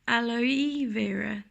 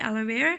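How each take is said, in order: First: It is said carefully with the E sound distinct. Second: It is said quickly with vowels run together. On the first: The speaker calls it right. "you pronounce the E more distinct distinctly" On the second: The speaker calls it wrong. "we pronounce it very quickly"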